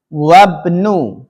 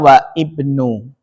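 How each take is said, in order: First: Wa runs straight into bnu without a break. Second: Wa is followed by a separate sounded i. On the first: The speaker calls it right. "Disambung, diwasal" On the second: The speaker calls it wrong. "Jangan bacanya wa ibnu. Salah"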